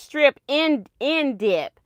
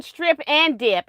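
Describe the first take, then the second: First: "strip in dip" with "in" in the middle; corrected "strip in dip"; "strip in dip" pronunciation. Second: "strip and dip" with a full "and"; "strip and dip" as she had been saying it; "strip and dip" pronunciation. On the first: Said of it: "and it's strip in, in dip". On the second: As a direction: say "strip and dip", "and" fully sounded. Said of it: "I've been saying it right". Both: Shown as a demonstration.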